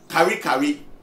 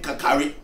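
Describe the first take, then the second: First: The name repeats two full syllables, kari kari. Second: The name is shortened to three syllables, kakari. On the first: This is the original form of the name. The speaker calls it right. "the original name is Kari Kari" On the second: This is a changed form from people who couldn't pronounce it. The speaker calls it wrong. "They couldn't pronounce it, so now they've made the name Kakari"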